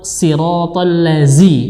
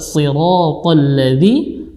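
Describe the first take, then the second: First: The last syllable starts with a plain z sound. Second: The last syllable starts with a voiced th sound. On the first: The speaker calls it wrong. "Mengganti huruf dza dengan huruf za" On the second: The speaker calls it right. "yang benar adalah siratal ladzi"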